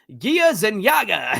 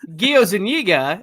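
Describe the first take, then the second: First: The surname is said as Zenyaga. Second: The surname is said as Zuniga. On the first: The speaker calls it wrong. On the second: The speaker calls it right.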